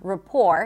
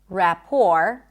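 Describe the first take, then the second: First: The first vowel is a weak schwa. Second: The first vowel is a full vowel.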